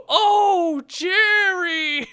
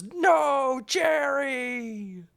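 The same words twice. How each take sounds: First: High, loud wailing shout; mock subtitle version yelled out; hammed-up shout. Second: High, strained cry of grief; mock the hero's agonized wail; hammed-up high cry over a dead friend; anguished movie cry. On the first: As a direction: overplay the grief, very high and loud. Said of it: "the subtitles were". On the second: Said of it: "I'm pretty sure he goes".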